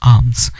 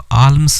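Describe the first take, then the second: First: The L sound is silent in the word. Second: The L sound is pronounced in the word. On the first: The speaker calls it right. "एल silent हो जाएगा। इसकी जो correct pronunciation होगी" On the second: The speaker calls it wrong. "इसको आल्म्स नहीं बोलेंगे"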